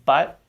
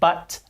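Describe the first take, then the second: First: The final T is held, not released. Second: The final T is fully released. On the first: "they tend to say" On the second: "rather than"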